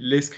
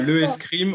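First: The article is elided and joined to the noun. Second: The article le is said in full before the vowel. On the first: The speaker calls it right. "on dit l'escrime" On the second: The speaker calls it wrong. "On ne dit pas le escrime"

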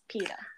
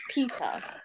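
First: The name is said in an American accent. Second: The name is said in a non-American accent. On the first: The speaker calls it right. "That's also American" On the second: The speaker calls it wrong. "It's not Peter"

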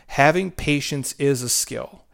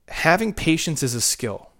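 First: It is said slowly and deliberately. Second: It is said at normal speed.

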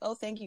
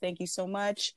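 First: The thanks sounds quick and offhand. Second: The thanks sounds deliberate and sincere.

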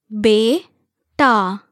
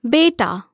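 First: The word is said slowly, one syllable at a time. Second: The word is said smoothly at normal speed. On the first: "syllable by syllable" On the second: "again at natural native speed"

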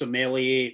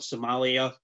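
First: It is said like the word sommelier. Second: It is said like the country Somalia. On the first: It names a wine expert. The speaker calls it right. "it's pronounced Somalia" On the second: It names the country. The speaker calls it wrong. "not Somalia, because Somalia is a pirate in the middle of the ocean"

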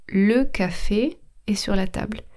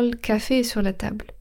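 First: The e of 'le' is fully pronounced. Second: The e of 'le' is dropped. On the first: This is the careful standard form. "Normalement, je devrais dire" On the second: This is casual, fast everyday speech. "quand on parle, on a tendance à aller plus vite"

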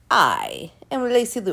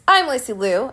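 First: It is said in a Dracula-like voice. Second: It is said in her own normal voice.

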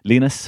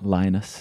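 First: The name is pronounced the Austrian way. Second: The name is pronounced the English way. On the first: "for here is Austrian" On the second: "in England English or American English"

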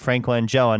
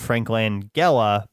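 First: The G in the surname is soft, like gel. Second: The G in the surname is hard. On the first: The speaker calls it right. "that is how you say it" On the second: The speaker calls it wrong. "not Frank Langella"

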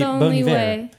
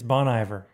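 First: The name is said with a French accent. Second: The name is said with an American accent. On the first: "If I was French, it would be Bon Iver" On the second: "since I have an American accent, it's Bon Iver"

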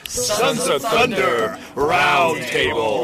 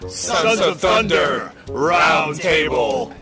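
First: The voice is bright and smiling. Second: The voice is deep and firm. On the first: The speaker calls it wrong. "You're way too happy, man" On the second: The speaker calls it right. "That's what I'm talking about"

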